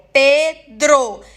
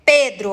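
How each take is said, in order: First: Pedro very slowly as Pe... dro; syllable by syllable. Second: Said in the usual way. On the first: Shown as a demonstration. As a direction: break Pedro into two separate beats. (Pedro em duas sílabas, bem devagar) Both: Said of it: "Tem duas sílabas".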